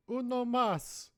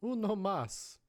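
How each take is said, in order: First: Put-on high, slow slurred drunk order; drunk bar order. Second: Said in the usual way. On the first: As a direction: stretch it out like a drunk asking for more. Ordering beer, voice escalating.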